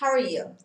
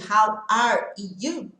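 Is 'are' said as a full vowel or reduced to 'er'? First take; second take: reduced er; full vowel. First: The word 'are' is reduced to a quick 'er'. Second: The word 'are' is said fully and clearly. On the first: "Esse are vira só no som do R. Er" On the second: "ao invés de how are you"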